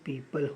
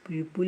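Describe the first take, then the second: First: The second syllable sounds like 'pal'. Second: The second syllable sounds like 'pul'. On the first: The speaker calls it right. "इसका pronunciation पीपल होता है" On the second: The speaker calls it wrong. "पीपुल पीपुल नहीं होता है"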